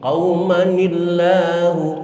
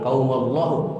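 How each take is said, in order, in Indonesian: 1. Bunyi 'ni' menyambung kedua kata. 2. Kedua kata bersambung tanpa bunyi 'n'. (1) "tapi qaumanillahu" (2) "Bukan qaumallahu"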